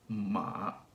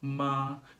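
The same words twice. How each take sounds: First: The pitch starts low in the voice. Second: The pitch stays high and level throughout. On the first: "the third one starts pretty low" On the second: "Notice that my pitch doesn't change at all"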